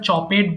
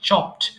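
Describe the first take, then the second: First: The word is said with two syllables. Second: The word is said with one syllable. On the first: The speaker calls it wrong. "এটা আমরা চপেড বলে ফেলি অনেক সময়" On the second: The speaker calls it right. "It's just চপড"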